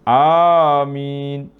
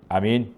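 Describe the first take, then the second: First: The word is said long and drawn out. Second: The word is said short and clipped. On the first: The speaker calls it right. "kita panjanglah sikit" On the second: The speaker calls it wrong. "jangan kata"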